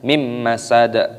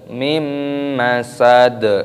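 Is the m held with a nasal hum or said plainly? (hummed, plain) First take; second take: plain; hummed. First: The m is said short without a nasal hum. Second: The m is held with a long nasal hum. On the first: The speaker calls it wrong. "kalau bacanya mim masad tidak boleh" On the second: The speaker calls it right. "harus didengungkan"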